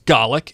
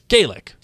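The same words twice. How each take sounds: First: The first vowel is a short A sound. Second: The first vowel is a long A sound. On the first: It refers to the Scottish language. "when pronounced with a short A" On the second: It refers to the Irish language. "when pronounced with a long A"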